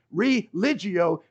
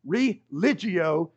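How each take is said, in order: First: Religio slow, falling at the end; drawn out Religio with a falling close; Latin word again. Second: Religio slowly sounded out as re-li-gi-o; Latin word. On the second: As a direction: say religio slow, every syllable clear. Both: Shown as a demonstration. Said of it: "Latin words mean go back to and bind".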